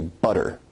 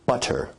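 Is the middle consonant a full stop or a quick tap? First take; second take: tap; full stop. First: The middle consonant is a quick tongue tap. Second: The middle consonant is a full t stop. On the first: "So in North American English, you say butter" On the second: "where you say butter, that involves a full t stop"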